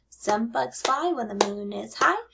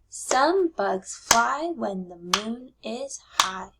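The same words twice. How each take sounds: First: It is read at a fast pace. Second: It is read at a slower pace.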